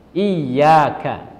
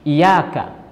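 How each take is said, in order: First: The y sound is doubled and held longer. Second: The y sound is single and short. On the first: It means only you. The speaker calls it right. "iyyaka dibaca dengan ada tasydid di huruf ya" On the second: It refers to sunlight. The speaker calls it wrong. "membaca dengan takhfif, artinya tidak memakai tasydid"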